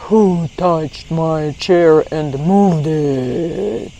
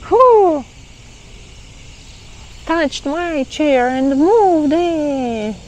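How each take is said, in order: First: It is said in a rough, deep voice. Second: It is said in a smoother, lighter voice.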